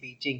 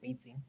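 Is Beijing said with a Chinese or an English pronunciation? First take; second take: English; Chinese. First: It is said with an English-style pronunciation. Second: It is said with a Chinese-style pronunciation. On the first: "didn't say Beijing" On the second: "he said it like the way Chinese people would say"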